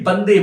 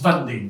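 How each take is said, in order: First: The word starts with a B sound. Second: The word starts with a V sound. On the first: This is how Bengali speakers say it. "it's actually Bande Mataram" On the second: This is how non-Bengali speakers say it. "when non-Bengali speakers say it, it becomes Vande"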